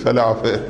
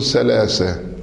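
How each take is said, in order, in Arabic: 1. يُنطق صوت th كالفاء. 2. يُنطق صوت th كالسين. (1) "والبحارنا يقلبون الثاء إلى فاء فيقولون فلافة" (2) "والمصريين يقولون 3 الثاء يقلبونها إلى سين"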